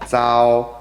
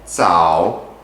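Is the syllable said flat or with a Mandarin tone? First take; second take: flat; toned. First: The syllable is said without a lexical tone. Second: The syllable is said with its lexical tone.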